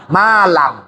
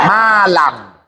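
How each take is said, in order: Both takes have the same delivery.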